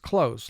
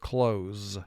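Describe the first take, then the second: First: The word ends with a hissing s sound. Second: The word ends with a buzzing z sound. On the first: Near, or by a narrow margin. "like that was a close call" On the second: To shut something. "the S would be representing its second sound"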